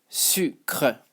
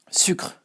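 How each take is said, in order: First: "Sucre" broken into su, pause, cre; syllable by syllable. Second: "Sucre" quick as one syllable; joined-up French pronunciation. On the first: Teacher modelling the word for learners, split into syllables. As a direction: sound out "Sucre" slowly in two parts. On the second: Teacher modelling the word for learners, run together. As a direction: say "Sucre" whole, final e silent. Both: Shown as a demonstration. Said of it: "how to pronounce it".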